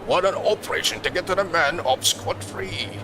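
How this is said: A big, grandiose voice delivers the line. The speaker calls it wrong. "you don't have to do the big, grandiose voice"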